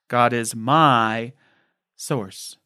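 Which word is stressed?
my. The stress is on the word my.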